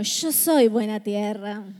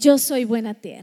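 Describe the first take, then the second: First: It is spoken in an Argentine Spanish accent. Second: It is spoken in a plain, neutral accent.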